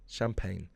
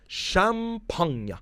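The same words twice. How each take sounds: First: Said in the usual way. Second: Champagne said as "sham-PAHN-ya", drawn out and high; mock-fancy pronunciation. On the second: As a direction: announce Champagne grandly as a slow "sham-PAHN-ya". Drawn-out mock foreign pronunciation, then plain.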